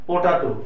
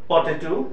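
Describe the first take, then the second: First: The second vowel sounds like an open 'a'. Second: The second vowel sounds like 'e'. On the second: "কিন্তু এটা উচ্চারণটা হবে পটেটো"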